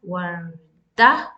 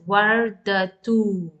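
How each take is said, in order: First: The word ends with an 'ah' sound. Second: The word ends with a 'tu' sound. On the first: The reading stops on the word. "Even then you will pronounce as varda" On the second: The reading continues without stopping. "When you continue with the dhamma, you pronounce as vardatu"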